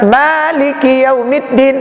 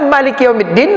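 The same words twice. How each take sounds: First: The first vowel of Maliki is long. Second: The first vowel of Maliki is short. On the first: "berarti mim alif lam kaf empat puluh" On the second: "Mim lam kaf berarti tiga puluh pahalanya"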